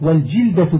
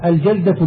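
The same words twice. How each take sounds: First: والجلدة with short i after jim; vowelled jilda. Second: الجلدة with short a after jim, unvowelled lam; vowelled jalda. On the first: Teacher explaining a piece of hide says والجلدة as "wal-jilda". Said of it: "بالكسر القطعة من الأديم". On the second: Teacher reading a glossary gives الجلدة as "al-jalda". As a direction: say الجلدة as "al-jalda", a in the first syllable. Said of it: "بفتح الجيم مع سكون اللام". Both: Shown as a demonstration.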